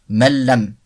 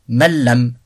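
Both takes have the same delivery.

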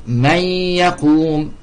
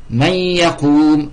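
Both takes have the same delivery.

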